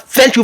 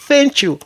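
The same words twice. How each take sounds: First: Thank begins without the tongue between the teeth. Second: Thank begins with the tongue between the teeth. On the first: The speaker calls it wrong. "On ne dit pas thank you" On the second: The speaker calls it right. "c'est thank you"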